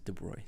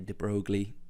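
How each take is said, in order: First: The name is said the recommended way. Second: The name is said the commonly heard way. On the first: The speaker calls it right. "the way it, it should be pronounced is de Broglie" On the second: The speaker calls it wrong. "People tend to say de Broglie"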